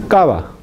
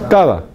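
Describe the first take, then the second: Both takes have the same delivery.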